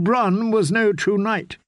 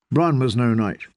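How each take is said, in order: First: "Bronn" said high and slow in a shaken lady's voice; shaky high lady, slow on "Bronn was no true knight"; distraught lady. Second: Said in the usual way. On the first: Acted. Felice quotes, stammering.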